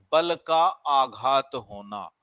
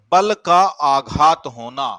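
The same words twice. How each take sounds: First: Slow repeat. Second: बल punched, loud and slow, then का आघात होना; stressed demo. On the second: Teacher demonstrating stress to students, बल hit loud and slow. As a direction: lean hard on बल and stretch the phrase out. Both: Shown as a demonstration. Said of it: "जैसे हम कहते हैं बलाघात".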